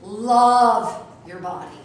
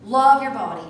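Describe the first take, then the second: First: Love your body stretched very slowly and loud; emphatic exhortation. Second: Love your body, louder, stress on love; emphatic exhortation. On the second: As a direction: repeat it firmly. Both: Shown as a demonstration. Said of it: "repeated exhortation".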